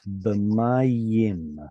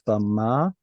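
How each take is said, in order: First: A smooth Y sound joins the word together. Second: A break splits the word into two parts. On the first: The speaker calls it right. "connecting it with a Y" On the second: The speaker calls it wrong. "you're making it almost like two words"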